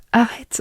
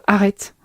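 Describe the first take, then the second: First: Lightly voiced fitness coach, higher; a hint of a pumped-up coach; Thibaut InShape impression. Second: Said in the usual way. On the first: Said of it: "Comme dirait Thibaut InShape". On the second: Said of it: "Comme dirait Thibaut InShape, arrête".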